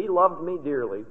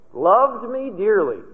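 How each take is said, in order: First: Said in the usual way. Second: Loved stretched slow and leaned on; stress on loved. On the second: Shown as a demonstration. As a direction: dwell fondly on the word Loved, slowly.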